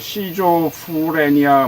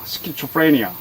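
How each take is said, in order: First: The word starts with a 'si' sound. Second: The word starts with a 'ski' sound. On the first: The speaker calls it wrong. "제가 이 발음을 처음에 못했었어요" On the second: The speaker calls it right. "정확한 발음"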